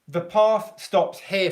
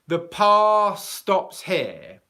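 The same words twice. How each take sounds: First: The th at the end of path is fully pronounced. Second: The th of path blends into the following s. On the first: "If I said" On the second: "in quick English speech, what I might say is"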